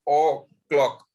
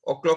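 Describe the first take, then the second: First: There is a slight pause after the o. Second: There is no pause after the o. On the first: The speaker calls it right. "ओ को थोड़ा आप ठहर के बोलते हैं" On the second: The speaker calls it wrong. "ओ clock नहीं बोलते हैं"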